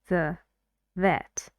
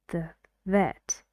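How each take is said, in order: The two takes are said the same way.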